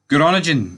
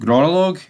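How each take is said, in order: First: The middle sounds like the usual English 'ning'. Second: The middle sounds like the word 'log'.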